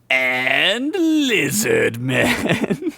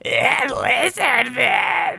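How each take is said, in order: First: It is said in his normal voice. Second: It is said in a put-on lizard-man voice.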